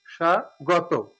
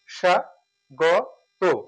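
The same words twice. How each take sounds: First: স্বাগত said slowly as শাগতো, no ব sound; drawn out স্বাগত starting with শ; slow model pronunciation. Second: স্বাগত stretched out very slowly as শাগতো; even slower স্বাগত with শ and no ব; slow careful repeat. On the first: (ধীরে উচ্চারণ) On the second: (খুব ধীরে উচ্চারণ) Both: Shown as a demonstration. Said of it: "এই জন্য তালব্য শ হবে".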